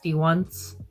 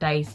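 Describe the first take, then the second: First: The name is said as dee followed by once. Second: The name is said like the word dice. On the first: The speaker calls it right. "it's D once" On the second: The speaker calls it wrong. "It's not dice"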